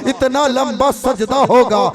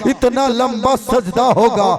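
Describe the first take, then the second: Both takes have the same delivery.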